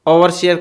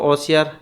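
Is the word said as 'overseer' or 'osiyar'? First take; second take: overseer; osiyar. First: It is said as the full form 'overseer'. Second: It is said as the shortened form 'osiyar'. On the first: The speaker calls it right. "ओवरसियर को" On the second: The speaker calls it wrong. "अशुद्धतया उच्चारण क्रियते"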